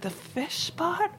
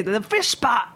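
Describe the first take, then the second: First: Much higher, slow and softer, puzzled; new cook echoing the chef's order, lost; baffled echo. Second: Higher, firm Kiwi repeat of the fish pot; boss repeats in Kiwi accent. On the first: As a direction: echo the fish pot in slow high confusion. Confused cook repeating the order. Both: Retold or imitated.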